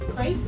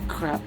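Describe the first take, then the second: First: The word has an American pronunciation. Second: The word has a French pronunciation. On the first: "How do we say crap in the American way?" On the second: "the French way of saying is crap"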